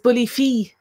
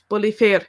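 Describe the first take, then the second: First: The second word ends without an R sound. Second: The second word ends with an R sound.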